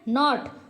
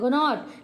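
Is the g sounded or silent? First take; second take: silent; sounded. First: The word starts with an n sound. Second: The word starts with a g sound. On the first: The speaker calls it right. "लेकिन जी इसमें silent है" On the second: The speaker calls it wrong. "वैसे पढ़े तो हमारा क्या हो जाएगा"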